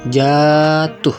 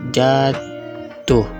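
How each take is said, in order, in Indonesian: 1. Suku kata pertama diucapkan panjang. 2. Suku kata kedua diucapkan panjang. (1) "silaba pertama pada kata jatuh yang diucapkan panjang" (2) "diucapkan panjang pada silaba kedua"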